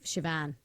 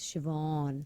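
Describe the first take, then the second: First: The last vowel is a short 'a'. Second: The last vowel is a long 'aw'. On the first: The speaker calls it wrong. "It's not" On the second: The speaker calls it right. "It's Siobhan"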